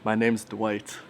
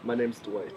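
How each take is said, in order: First: It is said louder. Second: It is said at normal, quieter volume.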